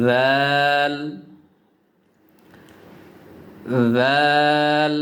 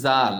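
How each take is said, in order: First: জাল with a voiced th, tongue tip on the upper front teeth; touch the teeth first, then voice জাল as dh; Arabic dhal. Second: জাল said with a Bengali j; wrong plain j. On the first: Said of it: "দেখুন আমি লাগাচ্ছি". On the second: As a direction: say জাল with an ordinary j sound. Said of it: "উচ্চারণটি সঠিক হয়নি". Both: Shown as a demonstration.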